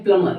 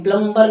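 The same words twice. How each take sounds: First: प्लमर with silent b; correct plumber. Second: प्लम्बर with the b sounded; wrong plumber. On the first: Teacher gives the right word, प्लमर without b. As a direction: say "PLUM-mer", no b at all. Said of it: "ये होता है प्लमर". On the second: Teacher warns learners, प्लम्बर with a spoken b. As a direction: say "PLUM-ber", audible b. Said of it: "प्लम्बर नहीं होता". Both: Shown as a demonstration.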